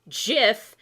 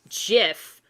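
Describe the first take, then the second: No difference in how they are said.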